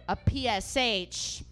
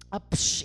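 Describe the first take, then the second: First: P S H said letter by letter, slowly; "P S H" as separate letter names; spelled out. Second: "psh" as one hushing, voiceless sound; "psh" like a puff of air; said as word. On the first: Spells out the abbreviation first. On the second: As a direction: run it together into a whooshed "psh". Then says it as one word. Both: Shown as a demonstration.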